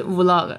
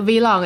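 First: "vlog" said as "woo-log"; one-word vlog pronunciation. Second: "vlog" said as "vee-log"; spelt-out V pronunciation. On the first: Host shows how others read it, "vlog" as "woo-log". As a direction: open "vlog" with an oo sound, no vee. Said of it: "有人读的是vlog". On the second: Host shows how some people read it, "vlog" as "vee-log". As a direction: say the V of "vlog" as the letter name, vee. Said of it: "有的人读的是vlog". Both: Shown as a demonstration.

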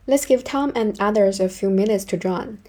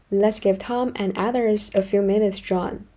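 Both takes have the same delivery.

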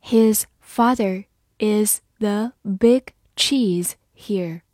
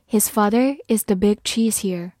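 First: His father is the big cheese here, very slow; slow read. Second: Said in the usual way. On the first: Shown as a demonstration. Teacher models the sentence slowly for class. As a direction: stretch out each word. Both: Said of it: "好，慢慢来读".

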